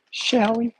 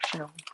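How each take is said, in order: First: Put-on high, lilting Southern accent; Southern woman. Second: Said in the usual way. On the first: Playfully asking as she fills the blender, in a Southern accent. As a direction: put on a Southern lady's voice, pitched up. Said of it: "I became a woman from the South".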